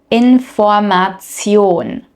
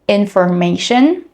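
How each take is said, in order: First: The ending is a literal 'tsion' sound. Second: The ending is a soft 'shun' sound. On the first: "the German pronunciation" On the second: "the English pronunciation"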